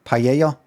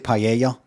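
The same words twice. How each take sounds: First: It is said with native-style foreign pronunciation. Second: The same.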